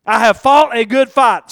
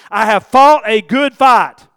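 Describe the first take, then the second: First: Said in the usual way. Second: Fought stressed, slow and louder; slow reading, weight on "fought"; emphatic reading. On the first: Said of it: "underline that word". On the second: Shown as a demonstration. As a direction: read "I have fought a good fight" slowly, leaning on "fought". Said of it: "Verse seven".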